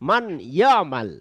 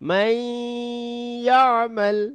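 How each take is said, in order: First: The n is pronounced clearly before the next word. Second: The n merges nasally into the following y sound. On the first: The speaker calls it wrong. "ভুল পড়া হচ্ছে" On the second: The speaker calls it right. "সঠিক পড়া হচ্ছে"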